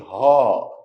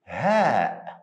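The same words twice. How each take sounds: First: The sound is heavy and full. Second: The sound is light and thin. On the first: The speaker calls it wrong. "Don't say" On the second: The speaker calls it right.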